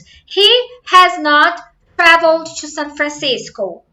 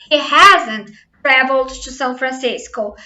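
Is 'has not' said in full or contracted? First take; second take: full; contracted. First: 'Has not' is said as two full words. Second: 'Has not' is contracted into one syllable. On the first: It is more formal. "has not" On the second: It is more colloquial and everyday.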